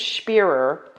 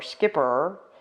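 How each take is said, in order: First: It sounds like spear with an extra er. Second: It sounds like skipper, starting with sk. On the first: The speaker calls it right. "I think it's Spearer" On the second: The speaker calls it wrong. "or Skipper"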